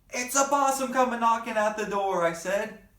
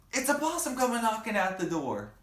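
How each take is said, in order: First: High, loud excited cry; excited shout. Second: High loud excited call; excited shout. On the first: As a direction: shout the news to the family. Child shouts discovery. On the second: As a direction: call it out again eagerly. Child repeats shout. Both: Acted.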